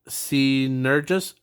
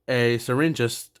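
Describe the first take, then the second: First: The first syllable has no R sound. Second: The first syllable has an R sound. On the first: The speaker calls it right. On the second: The speaker calls it wrong.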